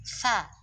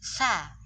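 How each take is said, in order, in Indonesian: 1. Vokalnya tipis, dengan bibir melebar seperti i. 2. Vokalnya tipis, dengan bibir melebar seperti i.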